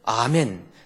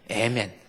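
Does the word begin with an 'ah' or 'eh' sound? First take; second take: ah; eh. First: The word begins with an open 'ah' vowel. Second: The word begins with an 'eh' vowel. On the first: "아멘 할 때도요" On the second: "미국 사람들은 에멘이라고 하죠"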